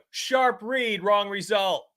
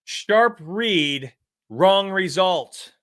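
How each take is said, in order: First: "Sharp read, wrong result" tossed off high and quick like a stock excuse; high, scornful "Sharp read, wrong result"; high mocking parrot. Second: "Sharp read, wrong result" drawn out slowly, each word weighted; slow mocking emphasis. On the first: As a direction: parrot the excuse-makers in a higher voice. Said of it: "What do we do?". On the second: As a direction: spell out the phrase you hate, slowly. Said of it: "here's what I hate the most".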